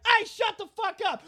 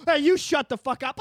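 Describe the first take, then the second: First: High-pitched shout to shut up; mock angry yell. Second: Less shrieky comeback, moderately high; mock angry retort. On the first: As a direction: yell it high, as a comic bully. Acts a film's neighbours yelling insults. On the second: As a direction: throw it back as the second brawler. Second man's retort in acted quarrel.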